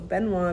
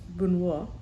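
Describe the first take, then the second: First: The name is pronounced with an English accent. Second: The name is pronounced with a French accent. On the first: The speaker calls it wrong. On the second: The speaker calls it right.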